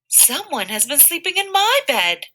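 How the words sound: It is said in a middle-sized voice. "in her middle sized voice"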